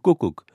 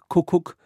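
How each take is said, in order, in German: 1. Der erste Konsonant ist ein weicher, unaspirierter Verschlusslaut. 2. Der erste Konsonant ist ein harter, aspirierter Verschlusslaut.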